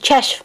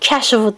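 First: The word ends with a consonant. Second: The word ends with an extra vowel. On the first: The speaker calls it right. "kəşfdir" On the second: The speaker calls it wrong. "bəzən kəşfı deyirlər. Xeyr"

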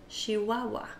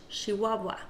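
Both takes have the same delivery.

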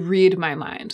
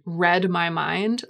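First: Read is said in its present tense form. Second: Read is said in its past tense form. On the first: It is a command. "like the command" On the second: It was done in the past. "like something that you did and was done in the past"

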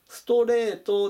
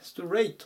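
First: It is said in Japanese katakana pronunciation. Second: It is said in English pronunciation. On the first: The speaker calls it wrong. "ストレートではなくて" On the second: The speaker calls it right. "ストレートっていうふうに発音します"

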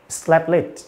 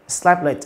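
First: The t at the first word's end is dropped. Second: The same.

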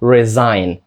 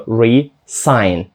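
First: The middle consonant is a voiced z sound. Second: The middle consonant is a voiceless s sound. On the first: To quit a job formally. "Перше, знову ж таки, S звучить як Z" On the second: To sign a contract again. "А далі S звучить як S"

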